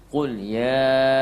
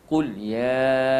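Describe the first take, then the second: The two takes are said the same way.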